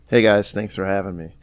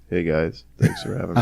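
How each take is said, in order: First: It is said in his ordinary voice. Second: It is said in a put-on manly voice.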